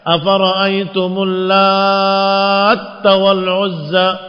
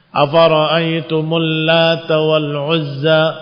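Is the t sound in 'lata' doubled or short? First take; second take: doubled; short. First: The t in 'latta' is doubled and held. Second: The t in 'lata' is short and single. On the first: The word means one who kneads, an active participle. "karena taknya bertasydid" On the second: The name refers to the goddess, a feminine form of ilah. "tanpa tasydid di huruf ta"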